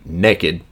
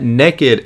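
First: It is said in an East Tennessee accent. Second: It is said in a standard accent.

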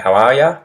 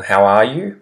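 First: The last word is reduced to 'ya'. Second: The last word is a full 'you'.

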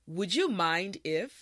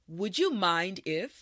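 No difference in how they are said.

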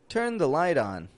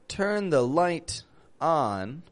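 First: The T in light is a quick flap. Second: The T in light is a crisp T. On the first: The speaker calls it right. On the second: The speaker calls it wrong. "It's not"

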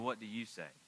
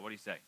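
First: It sounds condescending and scheming. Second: It sounds casual and friendly. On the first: The question hides a trap. "This is more like, I've got an ulterior motive" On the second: It is a genuine, friendly question. "This isn't like, hey, man, do you want to go to Bojangles or Taco Bell?"

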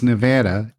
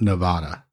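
First: The word is said the way locals say it. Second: The word is said the way outsiders say it. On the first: The speaker is from the area. The speaker calls it right. "It's Nevada" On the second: The speaker is from out of town. The speaker calls it wrong. "It's not Nevada. If you say Nevada, they know you're from out of town"

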